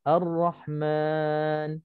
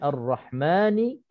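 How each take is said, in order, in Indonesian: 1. Kata ini berhenti pada konsonan, vokal dipanjangkan. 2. Kata ini bersambung, berakhir dengan vokal pendek. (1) "kalau berhenti Ar-Rahman jadinya mad arid lisukun" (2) "kita sambung nun itu tak mati, man itu dua harakat mad asli"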